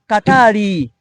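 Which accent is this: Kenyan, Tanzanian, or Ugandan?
Tanzanian. An extra vowel is added after the r. "in Tanzania, they pronounce it as Katari"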